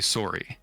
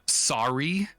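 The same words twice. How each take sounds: First: The vowel has a Canadian quality. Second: The vowel is a general, non-Canadian one. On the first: "I say sorry" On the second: "I don't say uh"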